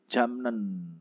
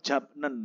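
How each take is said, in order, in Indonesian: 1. Bunyi m ada sebelum n. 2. Bunyi p ada sebelum n. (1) "Jadi bacanya menjadi jamnen" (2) "tulisannya kan japnen"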